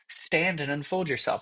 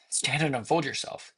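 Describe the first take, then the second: First: It sounds demanding and impatient. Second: It sounds frightened and nervous. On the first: The speaker insists the other person answer. The speaker calls it wrong. "my thought is that you're not answering me" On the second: The speaker is afraid of who is there. The speaker calls it right. "crap. Like, I'm scared"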